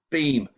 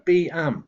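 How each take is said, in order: First: It is blended into a single word. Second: It is split into two separate parts. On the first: The speaker calls it right. "beam, hopefully" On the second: The speaker calls it wrong. "you're likely to go B am"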